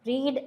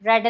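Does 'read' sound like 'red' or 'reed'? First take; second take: reed; red. First: The vowel is long, like 'reed'. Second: The vowel is short, like 'red'. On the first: It refers to reading in general. "റീഡ് വായിക്കുക" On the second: It refers to reading already done. "വായിച്ചിട്ടുണ്ട് എന്ന് പറയുമ്പോഴും റെഡ് എന്ന് തന്നെയാണ് വരുന്നത്"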